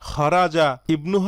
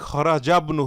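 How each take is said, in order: First: The 'i' sound is pronounced before 'bnu'. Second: The words run together with no 'i' sound. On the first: The speaker calls it wrong. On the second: The speaker calls it right.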